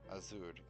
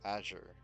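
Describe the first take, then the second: First: The word is said with Spanish-style sounds. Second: The word is said with English-style sounds. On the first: The speaker calls it wrong. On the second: The speaker calls it right.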